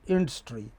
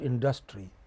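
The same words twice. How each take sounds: First: The stress falls on the first syllable. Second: The stress falls on a later syllable. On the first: The speaker calls it right. "it is industry" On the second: The speaker calls it wrong. "It is not industry"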